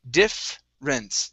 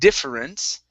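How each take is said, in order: First: The vowel after the f sound is dropped. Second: The vowel after the f sound is pronounced. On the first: The speaker calls it right. "it's difference" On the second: The speaker calls it wrong. "the e really, right after the the double f, we do not want to pronounce. So instead of saying difference"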